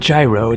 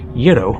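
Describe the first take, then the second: First: The word begins with a j sound. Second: The word begins with a y sound. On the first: The speaker calls it wrong. "It's not gyro" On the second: The speaker calls it right. "it's something more like euro"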